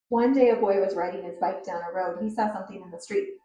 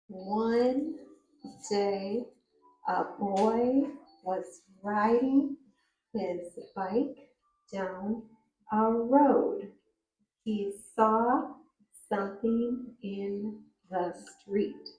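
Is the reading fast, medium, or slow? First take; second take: fast; slow. First: It is read quickly, rushing along. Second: It is read slowly, word by word.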